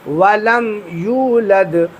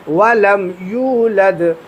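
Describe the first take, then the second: Both takes have the same delivery.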